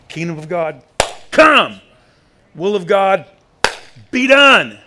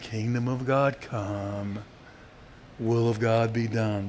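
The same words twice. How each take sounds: First: It is said as a forceful, demanding declaration. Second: It is said in a soft, weak voice.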